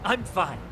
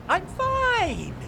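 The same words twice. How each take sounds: First: Said in the usual way. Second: I'm fine! jumped way up in a strained, overbright pitch; a cracking fake-happy squeal; forced cheer. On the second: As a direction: insist you're fine far too high and bright. Owner forced cheerful insistence.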